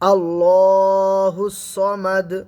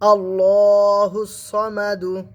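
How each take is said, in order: First: The final d is a stop with an echoing bounce. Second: The final d is followed by a u vowel. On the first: "দাল হবে কি? কলকলা" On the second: "দাল পেশ দু"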